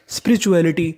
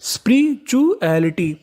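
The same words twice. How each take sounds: First: Said in the usual way. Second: spirituality stretched out slowly, syllable by syllable; slow teaching read. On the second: Shown as a demonstration. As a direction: sound out spirituality slowly for the class. (Spirituality को धीरे-धीरे खींचकर बोलना) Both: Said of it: "तो पूरी meaning बनी spirituality".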